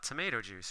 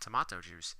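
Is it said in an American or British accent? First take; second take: American; British. First: It is said in an American accent. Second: It is said in a British accent.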